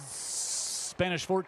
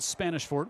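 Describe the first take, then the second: First: The opening S sound is drawn out long. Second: The opening S sound is short and plain.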